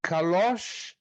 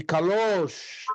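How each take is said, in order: First: "Calosh" with an open o; acute accent version. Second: "calosh" with a closed, drawn-out o; circumflex version. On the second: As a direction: lengthen and round the o of "calosh". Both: Shown as a demonstration. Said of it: "alguém tá percebendo a diferença?".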